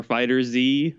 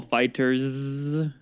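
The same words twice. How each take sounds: First: Fighter Z as two words, ending "zee"; Z said as a letter. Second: FighterZ as "fighters" with a long buzzing z. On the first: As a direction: say Fighter Z slowly with Z as its letter name. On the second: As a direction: run FighterZ together, stretching the final z sound. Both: Shown as a demonstration. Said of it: "no one can decide how to actually say it".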